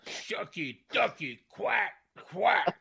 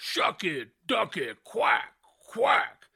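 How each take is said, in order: First: Slow, drawn-out catchphrase; a light take on Booker T; Booker T impression. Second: Slow, drawn-out catchphrase; Booker T impression. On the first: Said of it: "Booker T imitation". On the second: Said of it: "Like he goes".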